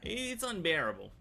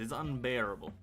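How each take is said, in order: First: Breathy exasperated whisper. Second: Said in the usual way. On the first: Real, not acted. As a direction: whisper it in disbelief. Repeats phrase, first take whispered.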